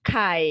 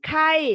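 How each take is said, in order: First: The syllable has a low tone. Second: The syllable has a falling tone. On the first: "ผันเสียงเอกนะคะ" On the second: "เสียงโท"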